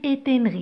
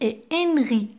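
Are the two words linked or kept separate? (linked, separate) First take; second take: linked; separate. First: The two words are linked together with a liaison. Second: The two words are kept separate, not linked. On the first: The speaker calls it wrong. "J'ai pas dit" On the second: The speaker calls it right. "j'ai pas fait la liaison"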